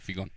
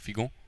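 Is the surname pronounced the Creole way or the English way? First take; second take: English; Creole. First: The surname is pronounced the English way. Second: The surname is pronounced the Creole way. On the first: "in English it's" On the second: "in Creole it's actually pronounced"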